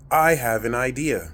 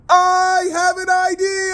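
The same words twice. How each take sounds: First: It is said plainly, without added feeling. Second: It is said boldly and confidently from the chest. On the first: It is just a passing thought. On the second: The idea is spoken with courage.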